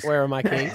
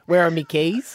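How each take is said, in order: First: The pronoun is pronounced 'my'. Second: The pronoun is pronounced 'me'. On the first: It is the standard way of saying it. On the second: It is how tradespeople talk. "tradies usually don't say my, they say me"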